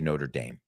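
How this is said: It is said with an American-style pronunciation. "in the United States, we say"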